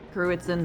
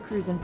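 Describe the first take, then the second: First: The name is said as Cruitzen. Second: The name is said as Cruzan. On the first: The speaker calls it right. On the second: The speaker calls it wrong. "What was it again?"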